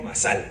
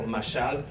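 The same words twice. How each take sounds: First: "masal" with a plain s, stress on the last A; hispanicized "masal", accented on the final syllable; regio reading. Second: "mashal" with a soft sh sound; careful attempt at Hebrew "mashal"; Hebrew pronunciation. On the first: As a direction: read "masal" the Monterrey way, s instead of sh. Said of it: "si lo lees regio, masal, con acento en la A". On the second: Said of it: "no prometo si lo voy a pronunciar exactamente". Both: Shown as a demonstration.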